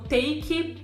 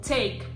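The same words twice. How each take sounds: First: An extra i vowel follows the final consonant. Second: The word ends cleanly on the final consonant. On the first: The speaker calls it wrong. "elas vão acabar soando como" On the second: The speaker calls it right. "é importante não colocar um i no final"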